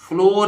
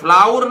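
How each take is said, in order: First: The vowel is pronounced like 'or'. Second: The vowel is pronounced like 'ow'. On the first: The speaker calls it right. "ये फ्लोर है" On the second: The speaker calls it wrong. "फ्लावर नहीं है"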